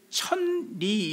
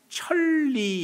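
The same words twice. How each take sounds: First: The middle consonant is an N sound. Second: The middle consonant is an L sound. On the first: The speaker calls it wrong. "이렇게 발음을 안 하고" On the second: The speaker calls it right. "이렇게 발음이 됩니다"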